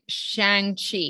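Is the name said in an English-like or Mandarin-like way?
English-like. The name is said with English-like sounds. The speaker cannot pronounce the name. The speaker calls it wrong. "she can't pronounce it"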